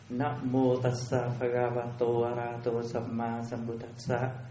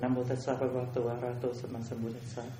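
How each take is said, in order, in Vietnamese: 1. Cụm từ này được đọc với nhịp độ bình thường. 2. Cụm từ này được đọc với nhịp độ nhanh hơn.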